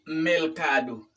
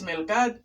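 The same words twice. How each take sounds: First: "mercado" slowly, with the final o sounded; "mercado" drawn out to its last vowel; corrected word. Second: "melcad" with L for R and no final o; "melcad" as two syllables ending in d; learner's error. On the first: Shown as a demonstration. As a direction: give "mercado" in three slow syllables. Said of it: "sino es mercado". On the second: Retold or imitated. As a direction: imitate the mistaken "melcad". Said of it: "pero no es melcad".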